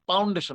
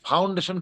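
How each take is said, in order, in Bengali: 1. প্রথম ধ্বনিটি একটি সাধারণ, শ্বাসবিহীন p। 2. প্রথম ধ্বনিটি একটি শ্বাসযুক্ত ph।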